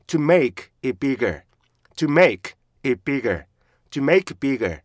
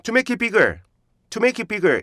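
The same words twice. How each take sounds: First: "to make it bigger" slow, with strong "make" and stops; slow, chunked "to make it bigger"; correct stressed phrase. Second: "to make it bigger" run together as 투메이키비거; evenly joined Korean-style "to make it bigger"; Korean learner's reading. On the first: Shown as a demonstration. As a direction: model "to make it bigger" in separate falling beats. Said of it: "이것도 강해져요". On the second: Retold or imitated. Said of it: "우리나라 사람들이".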